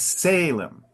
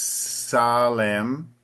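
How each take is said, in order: First: The stress falls on the first syllable. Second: The stress falls on the second syllable. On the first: The speaker calls it right. "the emphasis always moves up more to the front. So it's Salem" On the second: The speaker calls it wrong. "the pronunciation in Portuguese is Salem"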